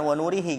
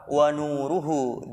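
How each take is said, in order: First: The last two syllables use 'i' vowels. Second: The last two syllables use 'u' vowels. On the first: The speaker calls it wrong. "jangan wa nurihi" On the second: The speaker calls it right. "itu dibacanya apa? Wa nuruhu"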